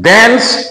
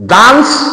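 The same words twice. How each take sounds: First: The word is said in an American accent. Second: The word is said in a British accent. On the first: "American English" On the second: "British English"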